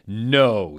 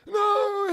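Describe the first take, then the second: First: Plain flat no; villain refusal. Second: Very high, strange shrieking villain; Voldemort voice. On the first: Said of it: "he laughed crudely". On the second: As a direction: screech it like a cackling villain. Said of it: "do more of a Voldemort voice". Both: Acted.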